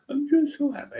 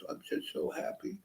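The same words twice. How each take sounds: First: Squeaky, much higher wailing sob; imitating friend crying. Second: Breathy whispered tearful sob of joy; half-whispered, choked up with happy tears; imitating friend crying. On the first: A man crying on the bus tells his friend he's happy, high tearful wail. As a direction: pitch way up into a teary happy wail. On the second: A man crying on the bus tells his friend he's happy, whispered through tears. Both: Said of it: "he was crying".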